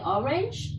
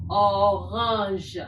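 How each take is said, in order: First: "orange" said the English way, OR-inj; plain English "orange" with an English r; English pronunciation. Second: "orange" said the French way, oh-RAHNZH; French "orange" with throaty r and nasal vowel; French pronunciation. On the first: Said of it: "In English, we say orange". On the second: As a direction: model "orange" firmly in French, stressing the second syllable. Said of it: "In French, we say". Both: Shown as a demonstration.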